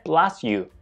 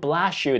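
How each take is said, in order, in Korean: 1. s와 y는 따로 분리된 소리로 남습니다. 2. s와 y는 sh 소리로 섞입니다. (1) "처럼요" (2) "대신에"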